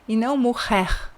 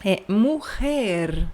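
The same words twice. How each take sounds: First: "morrer" with a throaty French-like R; teacher contrasting the wrong R; wrong guttural R. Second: "morrer" slow with a trilled R; teacher showing the right R; correct rolled R. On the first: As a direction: say "morrer" with the back-of-throat R to show the mistake. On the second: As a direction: roll the R in "morrer" slowly. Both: Shown as a demonstration.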